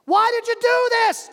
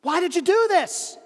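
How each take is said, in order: First: High, loud demand; shouting down. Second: Higher, raised voice; yell. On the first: Man on bridge shouts the question again. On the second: Man on bridge yells down at the stranger. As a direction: call down demanding why. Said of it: "he yells down". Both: Acted.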